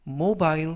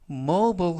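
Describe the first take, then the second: First: It is said with a British pronunciation. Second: It is said with an American pronunciation. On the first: "mobile 하면 영국식 발음이 되겠습니다" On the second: "mobile 하면 미국식 발음"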